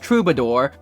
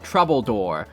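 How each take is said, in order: First: The middle syllable sounds like 'ba'. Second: The middle syllable sounds like 'bull'. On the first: This is the standard pronunciation. "Apparently it's pronounced troubadour" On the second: This is how the trailer narration said it. "the guy who narrated the trailer for this game pronounces it troubledoor"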